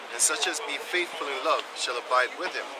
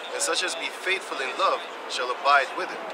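Both takes have the same delivery.

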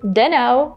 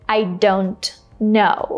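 First: The words blend into one reduced form. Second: Each word is said fully and separately. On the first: The speaker sounds casual and relaxed. The speaker calls it right. "it's always better to say" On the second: The speaker sounds a bit aggressive. The speaker calls it wrong. "it sounds a little bit aggressive"

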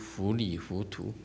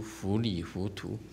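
First: The title sounds like fu-li-fu-tu. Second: The same.

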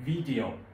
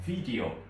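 First: The word is pronounced with English sounds. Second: The word is pronounced with English sounds.

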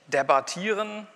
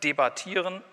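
First: The unstressed vowel is lax. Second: The unstressed vowel is tense. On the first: The speaker calls it wrong. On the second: The speaker calls it right.

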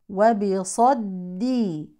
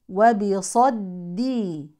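No difference in how they are said.

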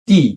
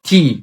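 First: The t sound has no puff of air. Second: The t sound has a strong puff of air. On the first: The speaker calls it wrong. "এটাকে আমরা সবাই বলি টি, আসলে এটা ট না" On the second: The speaker calls it right. "এটা উচ্চারণ হবে ঠ দিয়ে"

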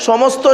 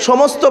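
No difference in how they are said.

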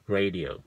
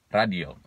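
First: It is said with English pronunciation. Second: It is said with Indonesian pronunciation.

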